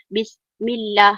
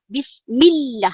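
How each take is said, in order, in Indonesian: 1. Bagian 'millah' diucapkan biasa tanpa penekanan. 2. Bagian 'millah' diucapkan dengan penekanan kuat. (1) "Kita tidak baca Bismillah" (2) "Bila ada penekanan"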